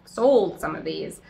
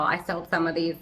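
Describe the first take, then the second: First: "sold" drawn out and emphasised; stress on sold. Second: Said in the usual way. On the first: Real, not acted. Seller correcting herself about past plant sales, stretched stress on "sold". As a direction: lean slowly on the word "sold".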